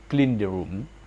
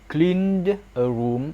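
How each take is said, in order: First: The final d links into the next word. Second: Each word is said separately, without linking.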